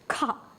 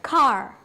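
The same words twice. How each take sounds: First: The word ends in an open ah sound, no R. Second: The word ends with a clearly sounded R. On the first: This is the British way. "The car is pronounced like this, ah sound" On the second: This is the American way. "They are pronouncing the R"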